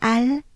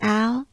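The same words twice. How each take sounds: First: It is said with a French accent. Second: It is said with an English accent. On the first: "with a French accent" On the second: "Just like in the [name] song, you can call me Al"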